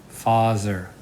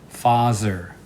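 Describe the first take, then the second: Both takes have the same delivery.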